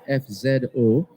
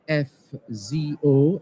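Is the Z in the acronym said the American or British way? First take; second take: British; American. First: The letter Z is said the British way. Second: The letter Z is said the American way.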